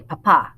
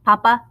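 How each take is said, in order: First: "papa" stressed on the final A; "papa" with a weak first syllable and strong ending; stress on last A. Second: "papa" stressed on the first syllable; "papa" with a strong first A and weak last A. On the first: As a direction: hit the second syllable of "papa". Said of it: "accent mark on the last A". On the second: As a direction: hit the opening of "papa", let the ending drop. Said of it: "do not have the accent mark". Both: Shown as a demonstration.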